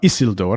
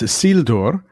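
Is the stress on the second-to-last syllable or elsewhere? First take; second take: elsewhere; second-to-last. First: The stress is not on the second-to-last syllable. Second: The stress is on the second-to-last syllable. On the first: The speaker calls it wrong. "It's not Isildur" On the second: The speaker calls it right. "the reason it's on the second to last is because of the L D"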